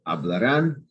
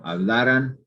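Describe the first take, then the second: First: Hablarán with stress on final RÁN; future-tense stress. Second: Hablaran with stress on LA; second-to-last syllable stressed in hablaran; past-tense stress. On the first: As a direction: punch the last syllable, RÁN. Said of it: "you stress the last syllable". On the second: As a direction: lean on the middle LA of hablaran. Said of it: "that's the past subjunctive". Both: Shown as a demonstration.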